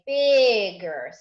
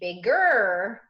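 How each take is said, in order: First: The stress is on the first syllable. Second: The stress is on the second syllable. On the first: The speaker calls it right. "we say bigger" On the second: The speaker calls it wrong. "We don't say bigger"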